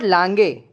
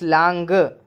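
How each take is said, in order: First: The final e is not a short a sound. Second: The final e sounds like a short a. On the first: The speaker calls it wrong. "It's not lange" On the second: The speaker calls it right. "It's lange. ... It's like small a"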